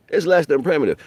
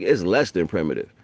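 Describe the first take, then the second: First: Higher and louder on less; emphatic repeat. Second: Said in the usual way. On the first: Shown as a demonstration. Repeating the point to the listener, "less" hit hard. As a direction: punch "less" in "It's less than primitive".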